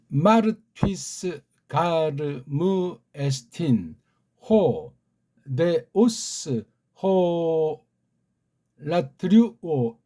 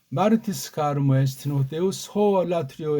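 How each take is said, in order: First: Read very slowly, each word separated by pauses. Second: Read faster, with the words run together. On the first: "아주 아주 천천히 알파베트 자음 모음을 읽어드렸습니다. / 한 단어 한 단어 끊어 읽기로" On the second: "조금 빨리 붙여서 읽어드렸어요. / 모든 단어들을 붙여가지고"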